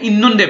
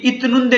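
First: The first syllable ends in an n sound. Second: The first syllable ends in a t sound. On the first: The speaker calls it right. "इसको आपने इन नुंदे पढ़ना है" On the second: The speaker calls it wrong. "ये इत नुंदे नहीं पढ़ा जाएगा"

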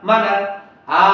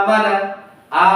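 No difference in how they are said.

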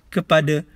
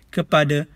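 No difference in how they are said.

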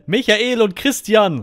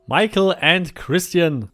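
First: The names are said with German pronunciation. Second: The names are said with English pronunciation.

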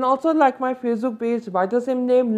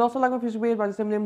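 First: The words are said at a slow pace. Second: The words are said at a fast pace. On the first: The speaker calls it right. "Let's slow it down" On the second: The speaker calls it wrong. "I said it a bit fast"

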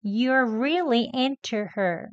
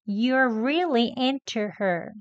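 First: The t in into is released clearly and slowly. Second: The t in into is released clearly and slowly.

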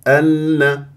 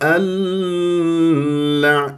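First: The doubled l is short and firm. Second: The doubled l is stretched long and loose. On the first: The speaker calls it right. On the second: The speaker calls it wrong.

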